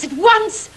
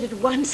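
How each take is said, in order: First: Higher, louder impatient demand; insistent cry. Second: Said in the usual way. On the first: Acted. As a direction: burst out, pushing to start immediately. Impatient to start the scene.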